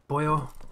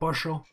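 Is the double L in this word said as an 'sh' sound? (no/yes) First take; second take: no; yes. First: The double L is not an sh sound. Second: The double L is an sh sound. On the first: This is how it is said in Mexico. "in Mexico they call it pollo" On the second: This is how it is said in Argentina. "In Argentina we say pollo. ... You replace this sound with the sh"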